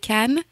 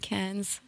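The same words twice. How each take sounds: First: It is said with a French accent. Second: It is said with an American accent.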